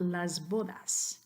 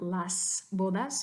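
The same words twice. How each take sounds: First: The s is voiced, a buzzing z sound. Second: The s is voiceless, a hissing s sound. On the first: The speaker calls it right. "you would want las bodas" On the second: The speaker calls it wrong. "here you wouldn't want las bodas"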